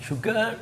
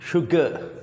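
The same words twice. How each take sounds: First: शुगर with the r sounded at the end, American style; American sugar. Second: शुगर with no r at the end, British style; British sugar. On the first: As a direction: say शुगर ending in a clear r. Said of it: "American करते हैं शुगर". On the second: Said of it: "British people". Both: Shown as a demonstration.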